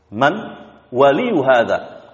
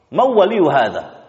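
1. Bunyi n diucapkan dengan jelas sebelum w. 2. Bunyi n menyatu menjadi bunyi w ganda. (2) "mengidghamkan nun sukun kepada waw sehingga mereka mengatakan mawwa"

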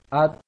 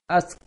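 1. Berakhir dengan t, anginnya sedikit. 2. Berakhir dengan bunyi mendesis seperti s. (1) "Kecil anginnya, tidak boleh besar-besar anginnya" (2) "Jangan sampai seperti S. Jangan sampai baca seperti ini"

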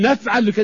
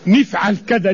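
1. الصوت الأول في الفعل هو 'a'. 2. الصوت الأول في الفعل هو 'i'. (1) "وتاني يقول" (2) "كسر حرف المضارعة"

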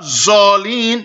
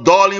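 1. Le mot commence par un son z. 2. Le mot commence par un d emphatique. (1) "not zalin like some people recite in Pakistan" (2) "You have to say Wala dalin with the dod"

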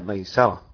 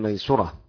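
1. الحركة بعد السين هي a. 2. الحركة بعد السين هي u. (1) "والباقي بفتحها" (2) "نافع يضم السين"

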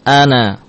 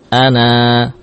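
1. Vokal akhir dibaca pendek. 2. Vokal akhir dibaca panjang. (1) "Tatkala wasal, maka alif ini tidak kita baca" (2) "Ana panjang"

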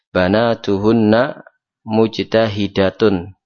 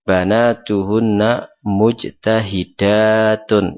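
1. Vokal sebelum akhiran -tun itu pendek. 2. Vokal sebelum akhiran -tun itu panjang. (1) "Ini berarti mufrad" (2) "Ini berarti jamak. Dan ini yang benar"

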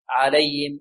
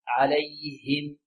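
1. صوت الهاء ناعم وضعيف ومائع. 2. صوت الهاء صافٍ وواضح النطق. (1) "لا نقول عليهم عليهم عليهم، هكذا يأتي بها هاء مائعة" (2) "هكذا الهاء تكون صافية واضحة"

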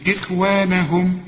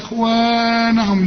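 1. يُمَدّ حرف المد مدًّا طبيعيًا فقط. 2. يُمَدّ حرف المد مدًّا طويلًا جدًا. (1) "ما عندكش إلا المد الطبيعي" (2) "ما تقولش بقى إخوانهم"

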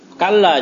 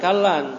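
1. Kata ini diakhiri dengan vokal biasa. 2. Kata ini diakhiri dengan bunyi n tambahan. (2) "jangan kallan"

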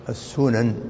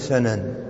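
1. الحركة الأولى هي صوت 'u'. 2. الحركة الأولى هي صوت 'a'. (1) "المشهورة بالضم" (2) "ويجوز أن تكون سنن"

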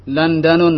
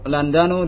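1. Kata itu diakhiri dengan bunyi -un. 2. Kata itu diakhiri dengan bunyi -u saja. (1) "tidak boleh" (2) "Yang benar adalah"

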